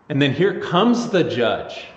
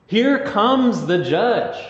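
First: Said in the usual way. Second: Here comes the judge drawn out high and slow, rising on here; dramatic proclamation. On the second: Shown as a demonstration. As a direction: announce it grandly, very slow.

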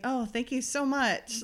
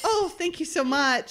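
First: Slow, softer imitation of forced politeness; reluctant mock thanks. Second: Higher-pitched, hammed-up polite thanks; mock gratitude. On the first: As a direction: draw out the thanks as if unsure what to say. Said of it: "What does one say?". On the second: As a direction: imitate an uncomfortable woman forcing out thanks. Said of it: "And Amanda's like".

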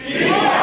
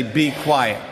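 First: Yelled at the top of the voice; shouted. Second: Said in the usual way. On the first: Shown as a demonstration. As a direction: shout it out like a crowd silencing. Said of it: "use your outdoor voice". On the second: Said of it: "I want you all to say".

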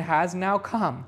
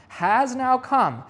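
First: Said in the usual way. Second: "has now come" slower and louder; emphatic repetition. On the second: Real, not acted. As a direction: drive home "has now come", slow and strong. Preacher repeats phrase for emphasis.

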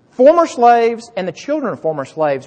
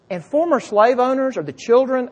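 First: "Former slaves" louder and higher, firmly corrected; corrected emphasis. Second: Said in the usual way. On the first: Shown as a demonstration. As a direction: restate it loud and clear to fix the slip. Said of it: "Have I been saying slave owners". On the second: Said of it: "uh, not slave owners, slaves".

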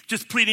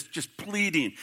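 First: "pleading" lifted higher and louder; emphatic repeat. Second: Said in the usual way. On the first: Shown as a demonstration. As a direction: hit "pleading" harder the second time. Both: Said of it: "repeated for emphasis".

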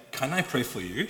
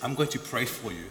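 First: Polite question rising on "you"; asking permission. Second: "I'm going to pray" stated, falling at the end; tell, don't ask: "pray for you" falls; firm announcement. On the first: Preacher voicing the question his mum never asked, rising question. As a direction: lift "pray for you" into a question. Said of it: "She doesn't even say". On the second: Preacher quoting his mum announcing her prayer, firm statement. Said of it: "She goes". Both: Retold or imitated.

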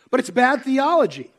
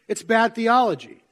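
First: Said in the usual way. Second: Bad punched, theology falls away; stress on bad. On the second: Shown as a demonstration. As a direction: hit the word bad.

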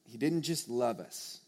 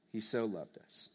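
First: Said in the usual way. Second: "so" leaned on, softly; quiet, tender weight on "so"; hushed emphasis on "so"; stress on SO. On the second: Shown as a demonstration.

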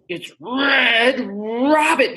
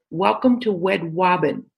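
First: Red Robin with clear r sounds, slow; careful r sounds. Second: Wed Wobbin with w for r; says w for r. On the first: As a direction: say Red Robin slowly with full r. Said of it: "And he'd go". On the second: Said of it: "He couldn't say his R's". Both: Retold or imitated.

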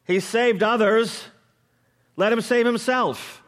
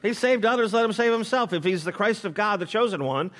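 First: High, loud mocking jeer; scoffing rulers. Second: Scoffing rulers. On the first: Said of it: "the rulers scoffed at him". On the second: Retold or imitated. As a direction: taunt him, daring him to prove it. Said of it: "also mocked him".

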